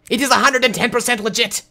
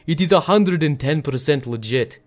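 First: It is spoken in a put-on German accent. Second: It is spoken in a put-on Russian accent. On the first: "But now I have to do it in a German accent. The Germans sound like they are angry" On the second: "it was actually in a Russian accent. So I'd be like"

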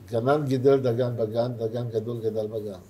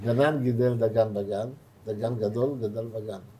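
First: It is said at a quick pace. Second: It is said at a slow pace.

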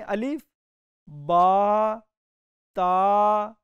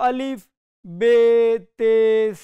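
First: The letter names end in an 'a' vowel. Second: The letter names end in an 'e' vowel. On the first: The speaker calls it right. "मारूफ तरीका यह है" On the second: The speaker calls it wrong. "ये इसका मजहूल तरीका है"

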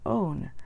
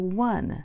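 First: It starts with an o vowel, no w. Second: It starts with a w sound. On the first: This is how it was said centuries ago. "People used to say own for the number one because that's the way it was written" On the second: This is how it is said today. "the pronunciation changed to one. We have the one sound, the w sound there"

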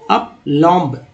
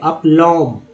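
First: The final B sound is pronounced. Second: The final B sound is silent. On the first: The speaker calls it wrong. "अप लॉम्ब ऐसे पढ़ेंगे तो गलती हो जाएगा" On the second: The speaker calls it right. "अप लॉम्ब पढ़ना है, बी को silent करना है"

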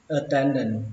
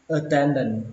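The two takes are said the same way.

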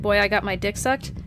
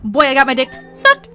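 First: The line is said in a flat, plain way. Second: The line is said in an exaggerated, excited way. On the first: "Even if I jokingly were to say" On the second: "I can never say, like, dick sucked with a straight face"

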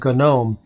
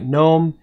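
First: The G at the start is pronounced. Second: The G at the start is silent. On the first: "the developers and designers of the GNOME desktop have declared that it should be pronounced GNOME" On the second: "GNOME with a silent G"

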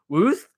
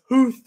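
First: The word begins without an h sound. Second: The word begins with an h sound. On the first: The speaker calls it wrong. "I mispronounced it" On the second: The speaker calls it right. "It's hooth"

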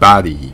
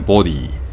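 First: The first vowel sounds like 'ah'. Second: The first vowel sounds like 'oh'. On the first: "あに近い発音ですよね" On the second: "ボディっていう単語ありますよね"

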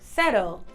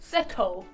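First: It is said in an American-style accent. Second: It is said in a slightly British accent.

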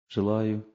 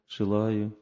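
Both takes have the same delivery.

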